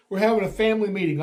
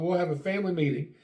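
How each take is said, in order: First: Louder, fast call; loud announcement. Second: Said in the usual way. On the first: Retold or imitated. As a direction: announce it loudly and quickly. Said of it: "I yell". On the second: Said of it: "So I'm like".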